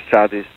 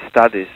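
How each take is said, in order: Both takes have the same delivery.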